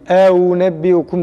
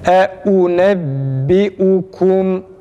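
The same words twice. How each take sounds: First: The glottal stops are missing or weak. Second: The glottal stops are clearly closed and released. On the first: The speaker calls it wrong. "Eu nebbiukum da değil" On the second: The speaker calls it right. "her iki hemzede de e, boğazın kapanıp açılması, açılması gerekir. Öyleyse doğru telaffuzu şu şekildir"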